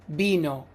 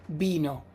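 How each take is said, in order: No difference in how they are said.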